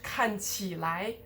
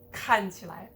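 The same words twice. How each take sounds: First: The syllables after 看 are stressed. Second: The syllables after 看 are unstressed. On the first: The speaker calls it wrong. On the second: The speaker calls it right.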